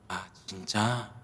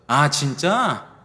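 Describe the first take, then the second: First: It is said in a sad, sympathetic tone. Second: It is said in an excited, happy tone.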